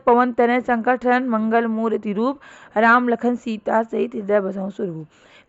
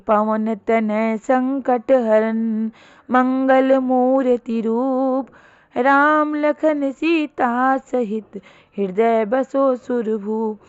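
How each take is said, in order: First: It is read plainly without a marked rhythm. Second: It is recited with a steady flowing rhythm.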